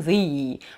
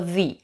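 First: The vowel is drawn out long. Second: The vowel is kept short. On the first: The speaker calls it wrong. "долго мы его тянуть не будем" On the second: The speaker calls it right. "мы скажем просто the"

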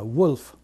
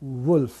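First: It begins with a w glide. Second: The same.

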